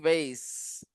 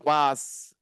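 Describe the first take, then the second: First: The word is said in a non-British way. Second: The word is said in a British way.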